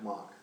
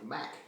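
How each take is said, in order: First: The vowel sounds like the one in cot. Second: The vowel sounds like the one in cat. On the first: This is how the family said the name. "pronounced it Mock" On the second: This matches how the name is spelled. "their name was Mack, M A C K, they spelled it"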